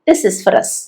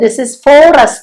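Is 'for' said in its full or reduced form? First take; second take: reduced; full. First: The word 'for' has a reduced vowel. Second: The word 'for' has a full vowel. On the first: The speaker calls it right. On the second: The speaker calls it wrong.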